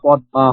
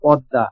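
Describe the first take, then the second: First: The word is split, each letter sounded separately. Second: The word is said smoothly, run together.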